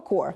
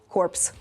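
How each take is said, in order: First: The word ends without p or s sounds. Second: The word ends with p and s sounds. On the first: The word means a military corps. The speaker calls it right. "правильну вимову цього слова core" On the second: The word means a dead body. The speaker calls it wrong. "якщо ти скажеш так, як ти сказав, корпс"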